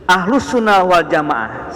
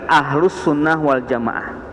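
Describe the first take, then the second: First: "Ahlus Sunnah wal Jamaah" said slowly and a bit higher, each word weighted; emphatic key term. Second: Said in the usual way. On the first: Shown as a demonstration. Teacher stressing the term to the class, slow and emphatic. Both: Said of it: "sekali lagi".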